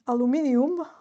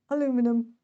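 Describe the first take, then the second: First: It is said in a Serbian accent. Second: It is said in an American accent.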